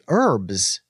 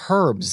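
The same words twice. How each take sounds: First: The word begins without an h sound. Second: The word begins with an h sound. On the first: This is how it is said in America. "where I'm from, we say herbs" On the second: This is how it is said in the UK. "the hard H herbs"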